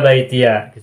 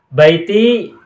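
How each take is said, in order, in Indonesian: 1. Kata ini berakhir dengan tambahan suku kata 'ya'. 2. Kata ini berakhir dengan 'ee' panjang biasa. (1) "boleh difathahkan" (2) "boleh disukunkan"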